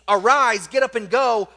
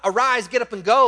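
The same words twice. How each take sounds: First: It sounds urgent but calm. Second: It sounds panicked, as if in danger.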